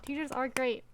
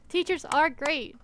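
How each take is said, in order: First: Said in the usual way. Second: "Teachers are great" said slowly, higher, with the words stretched; drawn-out praise. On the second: Shown as a demonstration. Streamer praising teachers to chat, slow and emphatic. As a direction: savour each word.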